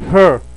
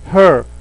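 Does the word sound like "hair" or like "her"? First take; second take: her; her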